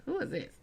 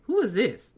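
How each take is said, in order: First: Irritated, dismissive "Who is this?" to an unknown caller; mock the rude "Who is this?" she gave him; annoyed. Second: Said in the usual way. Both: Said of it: "The way that I said it was like".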